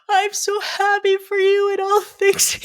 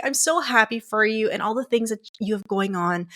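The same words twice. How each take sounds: First: High, sobbing, slowed words through tears; bawling. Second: Said in the usual way. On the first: Retold or imitated. Telling her partner her feelings, bawling through it. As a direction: choke it out while crying hard. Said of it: "I'm bawling". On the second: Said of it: "I'm like".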